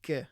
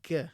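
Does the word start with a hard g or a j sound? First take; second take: hard g; hard g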